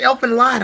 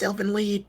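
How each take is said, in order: First: The second word sounds like 'lied'. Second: The second word sounds like 'lead'. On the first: The speaker calls it wrong. "Everybody calls it Elfin Lied" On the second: The speaker calls it right. "it's Elfin Lead. Stop"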